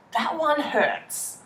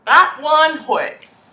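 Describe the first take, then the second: First: Soft, slow, wounded murmur; softly hurt. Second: That punched, slow and firm; stress on That. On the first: To the viewers, a quiet wounded aside. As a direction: let it sting quietly. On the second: To the viewers, firm with That stressed. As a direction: lean hard on That. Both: Shown as a demonstration.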